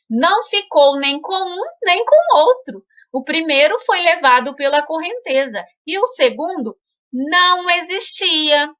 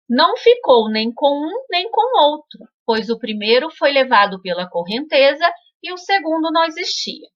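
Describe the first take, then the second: First: It is read in a very enthusiastic tone. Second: It is read in a very serious tone.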